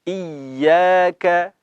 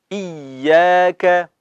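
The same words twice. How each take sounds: The two takes are said the same way.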